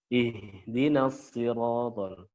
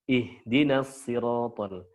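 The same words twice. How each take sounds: The two takes are said the same way.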